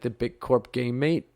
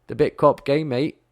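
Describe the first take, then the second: First: It is said in a plain, ordinary accent. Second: It is said in a put-on Australian accent.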